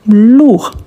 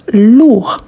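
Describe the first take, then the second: No difference in how they are said.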